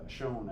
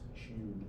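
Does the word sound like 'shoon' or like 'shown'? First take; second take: shown; shoon. First: The vowel sounds like the vowel in 'show'. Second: The vowel sounds like the vowel in 'shoe'. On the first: The speaker calls it right. "it was always pronounced sewn, uh, shown, I mean" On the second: The speaker calls it wrong. "I like to write shewn"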